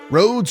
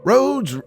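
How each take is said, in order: First: It is said in his ordinary reading voice. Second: It is said in an imitated character voice.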